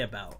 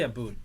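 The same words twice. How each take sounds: First: Said in the usual way. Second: "about" said as "aboot"; "about" rhyming with "boot"; exaggerated Canadian "about". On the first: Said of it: "I say about". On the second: Shown as a demonstration. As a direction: say "about" with an oo vowel. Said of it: "I don't say about".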